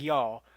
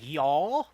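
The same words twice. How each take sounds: First: It is said loosely, with relaxed reduced sounds. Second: It is said crisply, with every sound overpronounced. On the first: It sounds natural and casual. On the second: It sounds unnatural and forced. "too much enunci"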